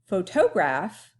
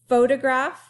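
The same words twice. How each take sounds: First: The stress is on the middle syllable. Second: The stress is on the first syllable. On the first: "on the toe" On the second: "On the fo"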